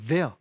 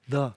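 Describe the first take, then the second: First: The word is pronounced fully and carefully. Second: The word is reduced to a quick, short syllable. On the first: "정확하게 there 이렇게" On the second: "정확하게 하지 않고 그냥 the, the 이렇게 하고 넘어가는 경우가 일반적입니다"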